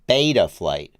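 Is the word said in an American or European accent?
American. It is said with an American accent, open mouth. "Not the American pronunciation"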